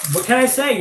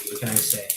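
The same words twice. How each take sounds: First: High mock exclamation. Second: Said in the usual way. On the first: Joking to viewers about loving candy, high playful shrug. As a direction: toss the line up high like a shrug.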